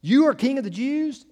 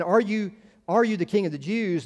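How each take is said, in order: First: "You" punched high and loud at the start; emphatic you. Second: Asked as a simple question, rising on are; plain question. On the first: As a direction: hit "You" hard, a statement turned question. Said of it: "you" is in a very emphatic position". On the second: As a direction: neutral questioning tone. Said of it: "if it's merely a question". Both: Shown as a demonstration.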